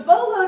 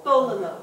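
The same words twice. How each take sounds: First: "bo lo" with no vowel after the first L; no inserted vowel. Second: "bololo" with a short vowel after the first L; short vowel inserted. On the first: Teacher contrasting two readings, "bo lo" without the extra vowel. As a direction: say "bo lo" with one L sound, nothing inserted. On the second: Teacher showing two lamed sounds, short vowel inserted in "bololo". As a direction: sound both Ls in "bololo", a brief vowel between. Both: Shown as a demonstration. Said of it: "a short vowel sound is inserted".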